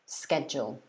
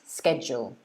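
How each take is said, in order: First: The word begins with a 'sk' sound. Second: The same.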